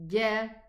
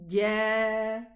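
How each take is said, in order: First: The vowel after the consonant is short. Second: The vowel after the consonant is long. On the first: "with just a fatha, ja. Short" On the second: "when we have an elongating letter after it"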